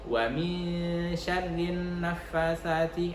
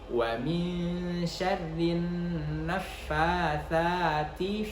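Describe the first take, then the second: First: The vowels in nafasati are kept short. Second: The vowels in nafasati are held long. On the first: The speaker calls it wrong. "seakan-akan dia tidak panjang" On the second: The speaker calls it right. "Harus kita panjangkan"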